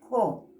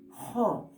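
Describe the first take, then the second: First: The first sound is plain, without extra breath. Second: The first sound carries a strong breathy puff. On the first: The speaker calls it wrong. "No es jo" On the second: The speaker calls it right. "Ese es expirado"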